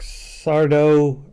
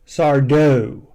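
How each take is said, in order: First: The stress is on the first syllable. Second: The stress is on the second syllable. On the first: The speaker calls it wrong. "I'm sorry" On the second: The speaker calls it right. "Accent on the dough"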